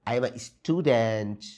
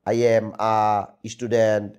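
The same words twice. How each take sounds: First: It is said lively, like natural human speech. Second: It is said flatly, like a stiff robot. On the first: The child is presenting naturally. The speaker calls it right. "সুন্দর করে ... মানুষের মতো সে যেন কথাবার্তা বলে" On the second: The child is reciting mechanically. The speaker calls it wrong. "বাচ্চা মূর্তির মতো দাঁড়িয়ে ... এমন না"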